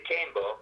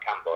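First: Cambo as CAME-bo, from Cambridge; correct pronunciation. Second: Cambo as CAM-bo, short A; rejected pronunciation. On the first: Guest explaining his nickname, Cambo said CAME-bo. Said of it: "it's pronounced like Rambo". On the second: Guest ruling out a misreading, Cambo said CAM-bo. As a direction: say Cambo with the A of "cat". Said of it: "obviously, not Cambo". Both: Shown as a demonstration.

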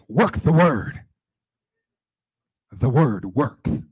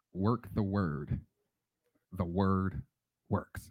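First: Imitated loud, fervent proclamation; Margaret Washington. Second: Slow, softer and lower; measured motto. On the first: Colleague who just heard from God, imitated fervent shout. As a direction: proclaim it loud, stretching the last phrase. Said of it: "And she said". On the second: Real, not acted. Preacher passing on a motto carried since, slow and soft. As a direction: say it slowly, softly, word by word.

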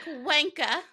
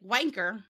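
First: Mock British "Wanker", higher, R dropped; imitated British pronunciation. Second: "wanker" with a hard American R at the end. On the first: American mimicking British friends, "Wanker" with the final R dropped. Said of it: "you guys are all like". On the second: Shown as a demonstration. American showing how her side says it, "wanker" with a hard final R. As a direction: sound the final ER fully in "wanker". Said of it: "it's the hard E R".

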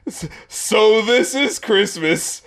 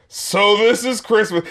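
First: Slow, drawn-out and unimpressed; a mock bored sigh of a line. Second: A slow, bored little mock of the lyric; lightly mocking the singer's boredom; not impressed. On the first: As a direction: drag it out like you couldn't care less. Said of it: "the way he says it is just like". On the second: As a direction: say it like Christmas underwhelms you. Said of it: "he's just not impressed by Christmas".

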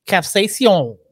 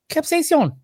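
First: Said in the usual way. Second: "Capsaicin" in a squeaky, high, mocking voice; silly high voice. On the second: Shown as a demonstration. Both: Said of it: "capsaicin sounds like the gayest word ever".

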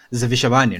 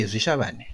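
First: "Zivishavane" with every syllable anglicised, plain English v before the sh; mock outsider's English pronunciation of "Zivishavane"; anglicised place name. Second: "Zivishavane" in native Zimbabwean pronunciation, the v-sh blended into one whistled sound; local pronunciation. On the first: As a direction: say "Zivishavane" the wrong way, in an English-speaker's accent. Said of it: "I can't go and be like". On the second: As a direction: say "Zivishavane" as a Shona speaker would, first syllables run together. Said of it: "No, I must say". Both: Shown as a demonstration.

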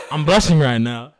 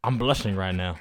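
First: Louder, laughing it out. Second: Said in the usual way. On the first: Real, not acted. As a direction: laugh through the words.

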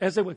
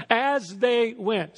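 First: Said in the usual way. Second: "As they went" drawn out slowly, each word weighted; slow, deliberate emphasis on "As they went"; slow stressed phrase. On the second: Shown as a demonstration. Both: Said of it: "Say it with me".

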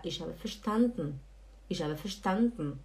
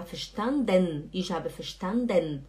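First: "verstanden" as fer-SHTAN-tn, lower ending; swallowed final E. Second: "verstanden" as fer-shtan-DEN, clear ending; full final E. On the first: Teacher showing advanced learners the finer detail, swallowed ending. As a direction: swallow the last vowel of "verstanden". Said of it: "você fala". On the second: Teacher showing advanced learners what to replace, over-pronounced ending. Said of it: "Em vez de falar". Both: Shown as a demonstration.

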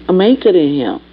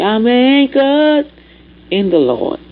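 First: Said in the usual way. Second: Anchored sung high and slow, from a hymn; sung line. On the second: Acted. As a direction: sing I'm anchored in the Lord like a hymn. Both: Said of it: "Like the song say".

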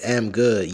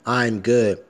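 First: Bare "am" with no "I" before it; "am" opening the phrase, pronoun missing; dropped "I". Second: "I'm" with a clear leading "I" sound; correct "I'm". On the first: Retold or imitated. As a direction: quote the mistake "am" exactly as written. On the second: Shown as a demonstration. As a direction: correct it to a proper contracted "I'm". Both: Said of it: "Bitch, put".

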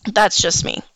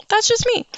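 First: Said in the usual way. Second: High, light sing-song repeat. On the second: Real, not acted. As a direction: toss it off in a high lilt.

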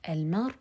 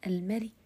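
First: Said in the usual way. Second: المري with a faint, barely voiced kasra at the end; rawm on المري. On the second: Shown as a demonstration. Teacher demonstrating rawm, المري ends in a faint kasra. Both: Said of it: "رومها صوت منخفض".

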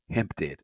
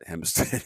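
First: "Hempstead" said lower, dropping the S sound; "Hempstead" with the S left out; without the S. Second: Said in the usual way. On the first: Retold or imitated. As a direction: say "Hempstead" with no S, in a lightly put-on voice. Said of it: "he say it like this ... without the S". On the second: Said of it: "how to pronounce Hempstead like this".

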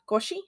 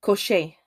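First: Koshi ending in "shee", rising; unsure pronunciation. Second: Koshé with a final "shay", falling; Koshé stated, tune dropping at the end; trying the pronunciation. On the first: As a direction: try Koshi as a question. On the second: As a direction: say Koshé firmly, ending on "ay". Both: Shown as a demonstration. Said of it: "I can pronounce this".

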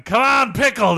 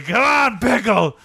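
First: High mock crowd cheer; root for the pickle mascot. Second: A touch of stadium cheer. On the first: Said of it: "We were going". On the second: Retold or imitated. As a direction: cheer the pickle on again. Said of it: "We were saying".

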